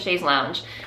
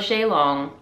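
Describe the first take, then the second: First: The second word sounds like 'lounge'. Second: The second word sounds like 'long'. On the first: The speaker calls it wrong. "I was calling it a chaise lounge" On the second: The speaker calls it right. "I stand corrected. It is a chaise longue"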